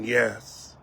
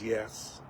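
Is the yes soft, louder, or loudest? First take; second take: louder; soft. First: It is said louder. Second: It is said softly.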